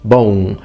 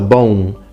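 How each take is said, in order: The two takes are said the same way.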